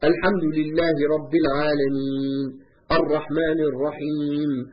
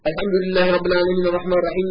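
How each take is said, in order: First: It is recited slowly, pausing after each verse. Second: It is recited quickly, running the verses together. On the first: This is the unhurried recitation of the Sunnah. The speaker calls it right. "Tersil nedir? Şöyledir" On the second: This rushed recitation goes against the Sunnah. The speaker calls it wrong. "Hızlı okumak, harfleri çeynemek, yutmak sünnete aykırıdır"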